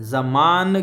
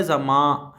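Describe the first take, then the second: First: "ज़मान" drawn out with a clearly sounded n at the end; full final n. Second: "ज़मा" ending in a long nasal aa, no n closure; nasalised final vowel. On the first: Teacher showing learners the unreduced word, full final n in "ज़मान". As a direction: close "ज़मान" on a full tongue-tip n. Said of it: "की बजाय ज़मा". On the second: Teacher showing ghunna to learners, nasal ending on "ज़मा". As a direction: let "ज़मा" trail into the nose as half an n. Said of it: "नून को बगैर नुक्ते के पढ़ा जाए तो आधे नून की". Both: Shown as a demonstration.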